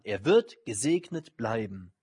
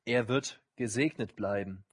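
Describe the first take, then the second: First: "wird" pressed, slow and weighty; slow, firm stress on "wird". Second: Said in the usual way. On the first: Shown as a demonstration. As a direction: land hard on "wird", slowly.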